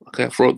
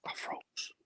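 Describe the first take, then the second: First: Said in the usual way. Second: Breathless unvoiced whisper of shock; frozen whisper. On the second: Agent recalls freezing when confronted by club, hushed whisper. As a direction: whisper it as if the shock hits you again.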